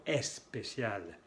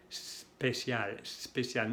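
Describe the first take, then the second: First: "especial" with a clear E before the S, "es-pécial"; added leading E. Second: "especial" begun straight on a long S, "sspécial", no leading E; S without E. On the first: Teacher showing the learners' mistake, E stuck before "especial". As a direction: put an E in front of "especial". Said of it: "no especial". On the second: Teacher modelling for Spanish speakers, "especial" starting on pure S. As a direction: drop the first E of "especial" and hiss into it. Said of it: "Hay que pronunciar". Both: Shown as a demonstration.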